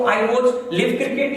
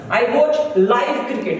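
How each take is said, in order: First: "live" said short, like give, in a slow demo; slowly, deliberately wrong, "live" rhymes with give; teacher shows the mistake; wrong pronunciation. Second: "live" said long, like five, in a slow clear sentence; slowly, with "live" rhyming with five; teacher models the right form; correct pronunciation. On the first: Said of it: "ये गलत हो जाएगा". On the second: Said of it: "इसका pronunciation बदल गया". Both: Shown as a demonstration.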